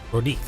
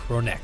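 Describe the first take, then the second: First: The second syllable sounds like 'nick'. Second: The second syllable sounds like 'neck'. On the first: The speaker calls it wrong. "I've been calling them Ronik" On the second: The speaker calls it right. "pronouncing Ronek wrong this whole time"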